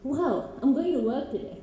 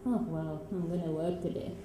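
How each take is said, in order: First: It sounds excited and eager. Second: It sounds reluctant and unenthusiastic.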